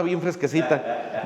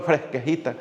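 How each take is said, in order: First: Said in the usual way. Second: Imitación juguetona del habla de Tuxpan; acento de Tuxpan. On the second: Retold or imitated. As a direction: di la palabra con acento de Tuxpan, en broma. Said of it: "Dicen en Tuxpan". (imitando en broma el acento de Tuxpan)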